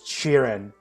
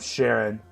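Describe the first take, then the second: First: The first vowel sounds like the one in cheer. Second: The first vowel sounds like the one in share. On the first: "It's supposed to sound like cheering" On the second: "I'm gonna keep calling him Sharon"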